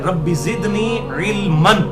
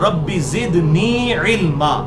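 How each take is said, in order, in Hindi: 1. आखिरी शब्द 'न' की आवाज़ पर खत्म होता है। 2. आखिरी शब्द लंबे 'आ' पर खत्म होता है। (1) "इल्मन लफ्ज है" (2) "जब उसे वक्फ करेंगे तो इल्मा बन जाएगा"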